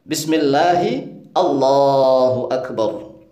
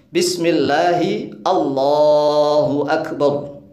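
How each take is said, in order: No difference in how they are said.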